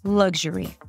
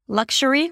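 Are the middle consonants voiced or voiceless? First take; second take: voiced; voiceless. First: The middle consonants are a voiced g and zh. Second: The middle consonants are a voiceless k and sh. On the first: The speaker calls it right. "It's voiced" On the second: The speaker calls it wrong. "it shouldn't sound like luxury, luxury with a k and a sh"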